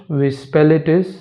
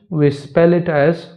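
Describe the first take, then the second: The two takes are said the same way.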